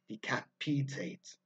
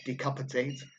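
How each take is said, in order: First: The vowel before the ending is long. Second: The vowel before the ending is short. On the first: The speaker calls it right. "ate as a suffix usually lengthens the vowels beforehand" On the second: The speaker calls it wrong. "Not decapitate"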